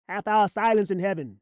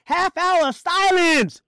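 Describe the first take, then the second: First: Said in the usual way. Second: Slow, high, loud shout; ringing preacher's command; shouted proclamation. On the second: Acted. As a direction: holler it out, stretching SILENCE. Shouted repeat.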